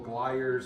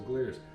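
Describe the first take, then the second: First: The first vowel sounds like 'eye'. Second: The first vowel sounds like 'ee'. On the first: The speaker calls it wrong. "I think I've been calling the festival Glyers and Gleers" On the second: The speaker calls it right. "the correct pronunciation is Gleers"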